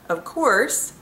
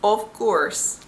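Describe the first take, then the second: First: It is said in a plain American accent. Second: It is said in a Dutch-sounding accent.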